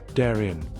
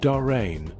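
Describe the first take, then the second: First: It is pronounced the local Wisconsin way. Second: It is pronounced like the Panama place name. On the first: This is how people in the village say it. The speaker calls it right. "Around here, it's usually pronounced Darien" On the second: This is the name of the place in Panama. The speaker calls it wrong. "It's not Darien, like the Gap in Panama"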